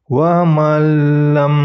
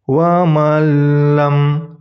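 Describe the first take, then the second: No difference in how they are said.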